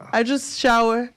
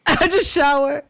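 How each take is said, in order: First: Said in the usual way. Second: Repeated through a laugh, higher and louder. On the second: Real, not acted. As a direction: laugh the words out as you say them again. Repeats line while laughing.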